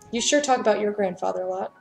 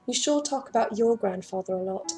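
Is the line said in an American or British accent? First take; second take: American; British. First: The line is said in the speaker's usual accent. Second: The line is said in an attempted British accent. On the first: "I'm not doing it" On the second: "That was terrible"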